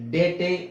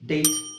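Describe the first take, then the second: First: The word ends with an extra vowel sound. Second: The word ends on the t sound. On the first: The speaker calls it wrong. "ಅಂತ ಹೇಳಲ್ಲ" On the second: The speaker calls it right. "ಅಂತ ಹೇಳ್ತೀವಿ. It is ಸೈಲೆಂಟ್"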